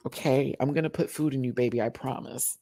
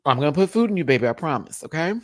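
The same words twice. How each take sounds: First: Mock-soothing promise, easy and measured; reassuring. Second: Higher, louder, quicker promise; insistent reassurance. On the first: Talking to own hungry tummy, reassuring. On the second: Pretend. Promising own hungry tummy food, insistent. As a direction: insist it, hurried and emphatic.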